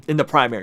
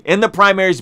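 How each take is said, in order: First: Said in the usual way. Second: Primaries fixed with a firmer push; self-correction. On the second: Real, not acted. Vlogger corrects himself to primaries, firmer. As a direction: correct it to primaries, a touch louder. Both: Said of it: "excuse me".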